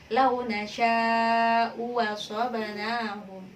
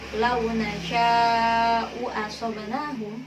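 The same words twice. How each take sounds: First: The second hamza is replaced by a w sound. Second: The second hamza is a full glottal stop.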